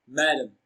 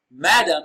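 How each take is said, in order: First: Madam as one word, "ma" stressed. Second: Madam split as "ma", pause, "dam"; broken into syllables. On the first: Teacher repeating madam after explaining it, stress on MA. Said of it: "Ma receives the stress". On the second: Teacher breaking madam down for learners, syllable by syllable. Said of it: "broken down into syllables as". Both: Shown as a demonstration.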